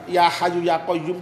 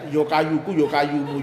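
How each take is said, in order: First: It starts with 'ya hayyu', with an h sound. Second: It starts with 'yo kayuku', with a k sound. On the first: The speaker calls it right. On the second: The speaker calls it wrong.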